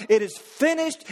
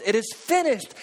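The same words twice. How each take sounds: First: Cried out. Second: Said in the usual way. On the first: Retold or imitated. Preacher voicing Christ on the cross, crying it out. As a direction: lift it into a ringing cry. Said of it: "Christ cried out". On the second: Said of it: "what he meant was".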